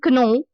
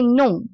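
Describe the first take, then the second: First: The word starts with a pronounced K sound. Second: The word starts with an N sound, no K. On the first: The speaker calls it wrong. "instead of saying kno" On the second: The speaker calls it right. "we say no"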